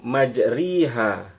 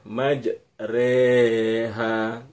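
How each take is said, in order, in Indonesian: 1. Vokal setelah r adalah i tertutup. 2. Vokal setelah r adalah e tengah. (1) "majriha ra-nya kasrah" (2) "jadi yang muncul bunyi E"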